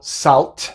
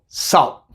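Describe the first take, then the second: First: The final T is released without a glottal stop. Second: The final T is made as a glottal stop. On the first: The speaker calls it wrong. "No digo salt" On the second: The speaker calls it right. "digo salt"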